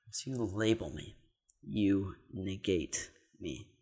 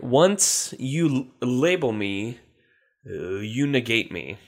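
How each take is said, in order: First: Softer, slower, thinking it over; quiet repeat. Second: Words drawn out slowly; slow, deliberate reading. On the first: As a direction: mutter it back slowly to yourself. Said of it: "say it one more time". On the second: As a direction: read it slowly and carefully. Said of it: "can you please use that in a sentence?". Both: Shown as a demonstration.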